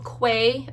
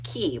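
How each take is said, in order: First: The word does not sound like 'key'. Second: The word sounds like 'key'. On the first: The speaker calls it wrong. "or not Quay" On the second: The speaker calls it right. "I think it's pronounced Key"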